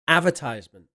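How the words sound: The word has an American pronunciation. "That's American"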